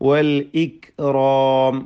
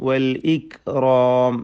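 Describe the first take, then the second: No difference in how they are said.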